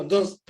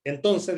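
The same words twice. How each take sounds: First: "entonces" swallowed to "onons", syllables dropped; clipped Chilean. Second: "entonces" with every syllable and the final s; full pronunciation. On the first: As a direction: chop "entonces" short, Chilean style. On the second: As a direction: say "entonces" carefully, all sounds in place. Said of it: "en vez de decir". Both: Shown as a demonstration.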